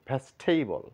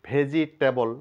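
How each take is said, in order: First: The vowel after veg is dropped entirely. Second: The vowel after veg is clearly pronounced. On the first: The speaker calls it right. "বলবো ভেস্টেবল" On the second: The speaker calls it wrong. "ভেজিটেবল না বলে"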